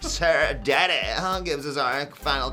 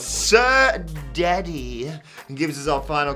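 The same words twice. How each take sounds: First: It is read in a put-on character voice. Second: It is read in a normal speaking voice.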